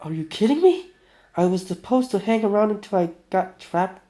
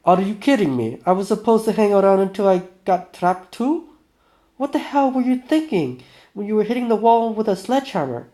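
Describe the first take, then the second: First: High-pitched, incredulous protest; mock outrage, pitched up; indignant outburst. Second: Loud, high, indignant outburst; angry protest, raised voice; Vinya. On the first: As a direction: protest in disbelief. First take of character's angry outburst. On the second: Acted. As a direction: lay into him in outraged disbelief. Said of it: "this is Vinya".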